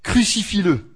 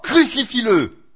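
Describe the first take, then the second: First: It is said less loudly. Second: It is shouted more loudly.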